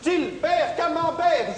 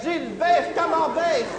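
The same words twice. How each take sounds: First: Chanted, much higher, slow, shouted singsong; chanted, drag the name out like a playground taunt; chanted, high slow shouted nursery taunt. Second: Sung, much higher, slow singsong from afar; sung, distant slow mocking singsong; sung, echoing taunt. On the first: Acted. Taunting rhyme at Gilbert. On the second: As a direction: let the chant float back like an echo. Taunting rhyme repeated.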